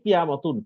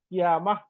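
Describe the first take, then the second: First: The word ends with a full 'tun' syllable. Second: The word ends on a bare vowel.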